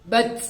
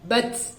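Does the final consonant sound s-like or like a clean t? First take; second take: s-like; s-like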